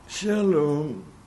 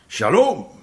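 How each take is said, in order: First: The word is said softly and calmly. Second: The word is said loudly and forcefully.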